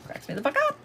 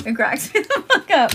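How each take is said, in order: First: Very high, chirpy little bird squeak; squeaky bird voice. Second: Said in the usual way. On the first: Retold or imitated. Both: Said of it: "I have sounded like a fucking bird".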